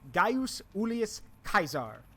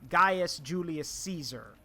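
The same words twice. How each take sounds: First: Caesar is said with the classical Roman pronunciation. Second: Caesar is said with the modern pronunciation. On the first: This is how the Romans themselves said the name. "The Roman way is" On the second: This is how people say the name today. "but we call him"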